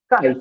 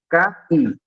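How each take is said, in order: First: The vowels glide together in one syllable. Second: Both vowels are strong, in two separate syllables. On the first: "O I ele sai mais daqui" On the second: "eu pronuncio essas duas vogais com um som mais, né, expressivo"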